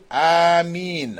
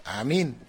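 First: Long, drawn-out Ameen; said aloud. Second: Short, soft Ameen; under the breath. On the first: Teacher showing worshippers' Ameen after Fatiha, said aloud. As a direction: Ameen held out in full voice. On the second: Teacher showing discreet Ameen for unready congregations, under breath. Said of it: "under your breath". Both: Shown as a demonstration.

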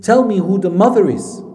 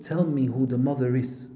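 First: Loud, higher-pitched urgent demand; intense demand. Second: Said in the usual way. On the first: Retold or imitated. Mother demanding answers from her crying son, intense. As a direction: retell it forcefully, voice raised. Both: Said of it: "It was so intense".

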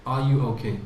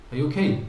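First: A genuine caring question; asking as a question. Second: Rising "okay?" as if what's wrong with you; incredulous question. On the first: Teacher demoing a sincere question. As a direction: ask it gently as a real question. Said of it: "It sounds like a question". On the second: Teacher showing a scornful question. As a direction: ask "Are you okay?" mockingly, as if they're silly. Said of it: "What's wrong with you?". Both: Shown as a demonstration.

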